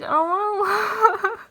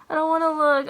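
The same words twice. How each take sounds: First: High, laughing through the words; giggling with real nerves; nervous giggle mid-word. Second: Nervous dread. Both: Real, not acted. Nervous before opening admission result.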